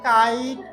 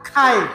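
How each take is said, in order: First: The first sound has no puff of air. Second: The first sound has a strong puff of air. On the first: The speaker calls it wrong. "লড়িচ্ছে না" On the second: The speaker calls it right. "বলবো খাইট"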